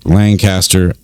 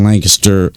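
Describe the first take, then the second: First: Lancaster as LAN-caster, full "cast"; standard pronunciation. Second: Lancaster run together as LANK-iss-ter; local pronunciation. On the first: Shown as a demonstration. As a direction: give Lancaster a clear "caster" ending. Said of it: "you would pronounce it". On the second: Real, not acted. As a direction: squash the middle of Lancaster to a weak "kiss". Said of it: "I say Lancaster".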